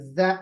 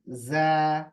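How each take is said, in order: First: The sound is cut off with a jerk. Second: The sound has an ordinary, even length. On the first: The speaker calls it wrong. "झटके से भी नहीं पढ़ेंगे।" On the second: The speaker calls it right. "Normal."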